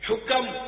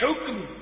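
First: An extra vowel separates the final two consonants. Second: The final two consonants are said together. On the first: The speaker calls it wrong. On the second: The speaker calls it right.

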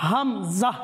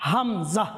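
Both takes have the same delivery.

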